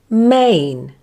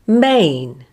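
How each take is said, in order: First: The vowel glides from one sound into another. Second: The vowel glides from one sound into another.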